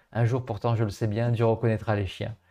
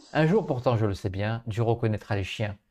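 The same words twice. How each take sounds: Both takes have the same delivery.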